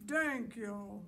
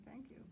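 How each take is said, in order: First: Loud monster's first words, mispronounced; big, clumsy monster thanks; deep booming monster. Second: Said in the usual way. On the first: Acted. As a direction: boom it out with a hard T. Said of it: "in a deep, booming voice".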